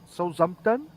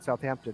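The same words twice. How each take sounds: First: It is said with a French accent, no th. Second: It is said with a plain English accent.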